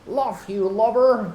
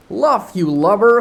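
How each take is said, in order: First: Much higher, odd put-on Irish sailor; second Irish try. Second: Put-on loud, high pirate cry, no Irish accent; just shout it like a sailor; own-way read. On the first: Smee yelling at the other pirate, a failed Irish voice. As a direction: give the Irish accent one more go, pitched high. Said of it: "I cannot do Irish". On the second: Smee yelling at his mate, plain pirate shout. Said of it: "gonna read it my own way".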